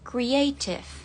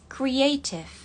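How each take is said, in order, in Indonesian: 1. Huruf T diucapkan sebagai T yang jelas. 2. Huruf T diucapkan sebagai T yang jelas.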